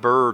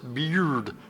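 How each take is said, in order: First: The word is said with an American accent. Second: The word is said with a Brazilian accent. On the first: "our American accent" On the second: "to sound more like a Brazilian speaking it"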